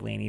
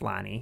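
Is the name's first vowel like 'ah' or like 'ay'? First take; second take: ay; ah. First: The first vowel sounds like 'ay' in day. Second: The first vowel sounds like 'ah' in father. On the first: The speaker calls it wrong. "it looks like Lainey" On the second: The speaker calls it right. "but it's Lonnie"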